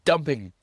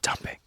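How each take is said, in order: First: It is spoken in a normal voice. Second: It is spoken in a whisper.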